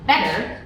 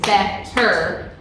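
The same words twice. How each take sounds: First: The word is said smoothly with one t. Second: The word is split into two separate syllables. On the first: "when you actually say it, we don't say the two T's" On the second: "you can hear it when you break apart the syllable"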